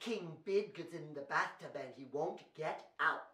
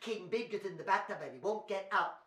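First: The sentence is spoken at a fast pace. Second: The sentence is spoken at a faster pace. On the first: "We better say it fast" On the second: "Can you go faster?"

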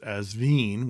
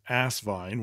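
First: The name is pronounced in a French-sounding way. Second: The name is pronounced plainly, not French-sounding. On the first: "which sounds very sexy because it sounds French" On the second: "which was my favorite"

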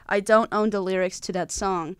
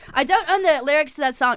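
First: It is read in his own plain voice. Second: It is read in an imitated author's voice.

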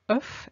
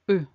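First: It is said in the singular pronunciation. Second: It is said in the plural pronunciation. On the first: There is one egg. "œuf becomes" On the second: There are several eggs. "becomes œuf in the plural"

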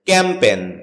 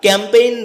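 First: The second vowel is a plain 'e'. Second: The second vowel glides like 'ay'. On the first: The speaker calls it right. "যার সঠিক উচ্চারণ হচ্ছে ক্যাম্পেন" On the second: The speaker calls it wrong. "এটাকে আমরা ক্যাম্পেইন বলে থাকি"

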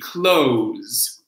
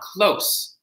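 First: The word ends with a buzzing z sound. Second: The word ends with a hissing s sound. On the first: It is used as a verb. "With a Z" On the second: It is used as a noun. "that is the noun"

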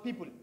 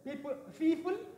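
First: The word begins with a p sound. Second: The word begins with an f sound. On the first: The speaker calls it right. "but people" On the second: The speaker calls it wrong. "We don't say people"

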